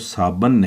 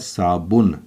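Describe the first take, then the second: First: The second syllable has an 'a' vowel. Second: The second syllable has a 'u' vowel. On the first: The speaker calls it wrong. "कई बच्चे इसे साबन पढ़ते हैं, तो साबन नहीं है" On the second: The speaker calls it right. "बल्कि है साबुन, बे के ऊपर पेश है"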